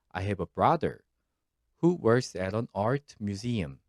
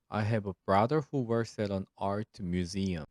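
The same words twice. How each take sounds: First: There is a short pause after "brother". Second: The sentence is read straight through without pausing. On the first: The clause adds extra information about the brother. "쉼표 부분에서 잠시 쉬었다가 읽어주셔야 합니다" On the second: The clause restricts which brother is meant. "이렇게 쭉 읽어서 어, 읽어주시면 됩니다"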